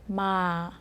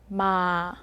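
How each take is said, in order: First: The tone falls slowly from high to low. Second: The tone falls slowly from high to low.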